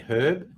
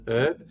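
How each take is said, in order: First: The word begins with an h sound. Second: The word begins with a vowel sound. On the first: The speaker calls it right. "micro super credibility if you say herb" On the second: The speaker calls it wrong. "Americans saying herb"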